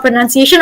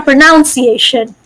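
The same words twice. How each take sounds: First: Said in the usual way. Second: "pronunciation" with NOUN as second syllable; alternative pronunciation. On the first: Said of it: "it's either called pronunciation or pronunciation". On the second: Shown as a demonstration. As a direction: say "pronunciation" as pro-NOUN-ciation. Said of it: "pronunciation or pronunciation".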